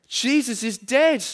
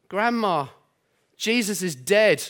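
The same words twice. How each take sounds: First: Put-on higher, slower Geordie little girl, sad; sad Geordie child. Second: Put-on light Geordie little girl, sad; mild Geordie accent for a small girl; a hint of Geordie child voice, mildly sad. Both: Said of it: "butcher the Geordie accent".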